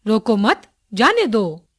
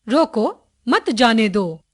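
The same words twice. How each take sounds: First: रोको मत run together, then जाने दो; slow, join मत to रोको and break before जाने दो; pause after मत. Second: रोको set apart with a rising end, then मत जाने दो; pause after रोको. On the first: Teacher showing the opposite meaning by moving the pause, break after मत. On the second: Teacher showing how punctuation changes meaning, pause after रोको. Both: Shown as a demonstration. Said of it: "बीच में रुकना कितना आवश्यक है".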